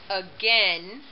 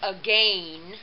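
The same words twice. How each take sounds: First: The second vowel is not a long A. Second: The second vowel is a long A. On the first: The speaker calls it right. "again is the proper pronunciation" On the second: The speaker calls it wrong. "we have the silent I making the long A"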